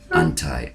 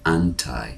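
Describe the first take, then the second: First: The two words blend into one reduced word. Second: The two words blend into one reduced word.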